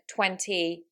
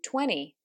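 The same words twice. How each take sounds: First: The T after the N is clearly pronounced. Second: The T after the N is dropped. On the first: "In the British accent, those, as you can hear, are said" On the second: "But in an American accent, that would be"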